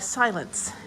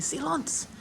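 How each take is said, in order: First: The word is pronounced the English way. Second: The word is pronounced the French way.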